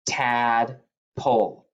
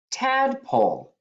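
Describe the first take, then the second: First: Tadpole stretched out slowly, syllable by syllable; slow repeat. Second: High announced word. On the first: Teacher repeating the word slowly for the kids to write. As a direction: draw Tadpole out slowly for spelling. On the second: Teacher announcing the next spelling word high. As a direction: call out tadpole high. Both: Shown as a demonstration. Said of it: "Number four".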